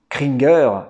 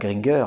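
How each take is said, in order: First: The name begins with a K sound. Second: The name begins with a G sound. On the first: The speaker calls it right. "Kringer et non pas Gringer" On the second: The speaker calls it wrong. "non pas Gringer"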